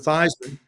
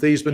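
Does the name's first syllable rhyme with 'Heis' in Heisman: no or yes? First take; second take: yes; no. First: The first syllable rhymes with Heis. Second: The first syllable does not rhyme with Heis. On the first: This is the changed pronunciation used for award publicity. "to Theismann, um, in an effort to try and get the Heisman Trophy" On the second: This is the original family pronunciation. "change the pronunciation of my last name from"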